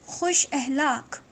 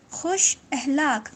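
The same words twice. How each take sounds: The two takes are said the same way.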